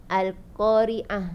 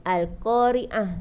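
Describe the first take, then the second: Both takes have the same delivery.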